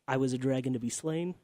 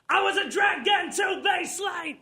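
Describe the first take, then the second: First: It is spoken at a normal, calm volume. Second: It is shouted loudly with high energy.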